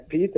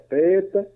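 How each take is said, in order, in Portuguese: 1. O nome é pronunciado de forma não alemã. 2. O nome é pronunciado de forma alemã. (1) "que não é Peter" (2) "essa pronúncia peculiar do seu nome"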